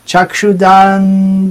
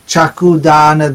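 First: The first word is said 'chakshu' with a ksh cluster. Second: The first word is said 'chaaku' with a plain k. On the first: It means the gift of eyes. The speaker calls it right. "चक्षुदान बोलने से बड़ी छूटी नहीं है, चाकूदान नहीं बोलना चाहिए" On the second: It sounds like the word for knife. The speaker calls it wrong. "बहुत से वक्त चाकू दान दिलो जय ऐसे कह"

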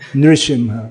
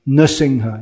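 First: The r is followed by an ee-like vowel. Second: The r is said with no vowel after it. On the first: "Millions of people say ri" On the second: "mostly now people just don't pronounce it at all"

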